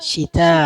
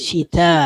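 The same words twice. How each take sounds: No difference in how they are said.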